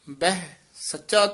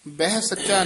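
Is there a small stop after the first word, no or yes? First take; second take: yes; no. First: A small stop follows the first word. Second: The two words run together without a stop. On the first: The speaker calls it right. "ਬਹਿ ਪਦ ਤੇ ਯਮਕ ਲਾ ਕੇ ਉਚਾਰਨ ਕਰਨਾ" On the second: The speaker calls it wrong. "ਬਹਿ ਸੱਚਾ ਨਹੀਂ ਕਹਿਣਾ"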